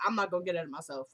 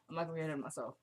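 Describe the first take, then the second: First: Said in the usual way. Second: Softer self-reminder, not pushed on the not; quiet repeat. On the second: Shown as a demonstration. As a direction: say it again much softer, to yourself.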